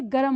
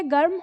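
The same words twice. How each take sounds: First: गरम said as "ga-ram"; full र in गरम. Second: गर्म as a single syllable, "garm"; no vowel between र and म in गर्म; quick र in गर्म. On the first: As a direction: put a vowel between र and म in गरम. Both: Shown as a demonstration. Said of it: "शब्दों में अंतर आपका इसी से".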